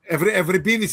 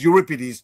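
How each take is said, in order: First: The name is pronounced the Greek way. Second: The name is pronounced the English way. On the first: "is my name" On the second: "Anglicized, it becomes"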